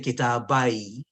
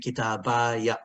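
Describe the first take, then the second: First: The word ends on the y with no vowel. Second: The word ends with a short final a vowel. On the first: The speech stops after this word. "if I stop" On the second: The speech continues after this word. "if I don't stop"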